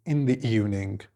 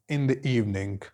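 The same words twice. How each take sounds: The two takes are said the same way.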